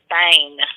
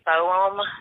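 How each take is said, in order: First: The name is said as one syllable, Bane. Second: The name is said as two syllables, Bo-hem. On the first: This is the family's own pronunciation. The speaker calls it right. "no, it's Bane, like B A N" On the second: This is how teachers mispronounced it. The speaker calls it wrong. "they would pronounce it like that"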